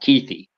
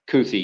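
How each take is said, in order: First: The first syllable sounds like Keith. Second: The first syllable does not sound like Keith. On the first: "Keith with an E at the end" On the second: "I guess I'm just going off of English, and a U and an I"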